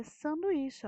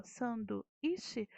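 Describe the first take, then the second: First: Said in the usual way. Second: Sanduíche broken slowly as san-du-í-che; slow Sanduíche with a gap before íche; split into syllables. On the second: Shown as a demonstration. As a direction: separate the u from the í in Sanduíche. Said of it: "Então, já separei aqui".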